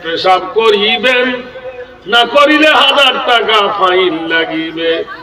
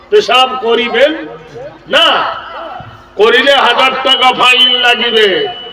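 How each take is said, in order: First: The pause comes before the word না. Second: The pause comes after the word না.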